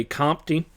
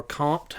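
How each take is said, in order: First: Comte said as "COMP-tee"; two-syllable Comte. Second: Comte said as "compt", no final vowel; one-syllable Comte. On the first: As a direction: pronounce Comte with an extra "ee" at the end. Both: Shown as a demonstration. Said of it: "however you want to say that".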